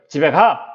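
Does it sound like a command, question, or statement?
command. It ends with a short, firm fall. The speaker tells someone to go home. "명령형이 되는 것이죠"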